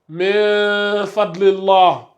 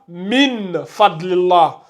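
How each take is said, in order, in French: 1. Le son n est caché avec une légère nasalisation. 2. Le son n se prononce pleinement et clairement.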